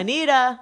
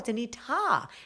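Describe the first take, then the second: First: The last syllable starts with a soft d sound. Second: The last syllable starts with a clear t sound. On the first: "in New York we say Anita" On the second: "people in Canada pronounce the ta"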